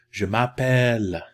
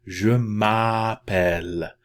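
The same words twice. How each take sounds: First: Louder, connected "Je m'appelle"; quicker repeat. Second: Slow, loud, stretched "Je m'appelle"; wide-open A. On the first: Teacher repeats the phrase for learners, natural-speed "Je m'appelle". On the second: Teacher tells learners to open the mouth, slow demonstration of "Je m'appelle". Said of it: "Very wide open". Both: Shown as a demonstration.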